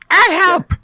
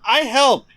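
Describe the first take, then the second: First: It is said in a put-on parrot voice. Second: It is said in a normal voice.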